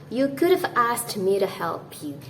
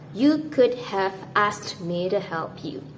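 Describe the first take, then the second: First: 'Have' is contracted with 'could'. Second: 'Have' is said in full. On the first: The speaker calls it right. "you might want to say this" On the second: The speaker calls it wrong. "instead of"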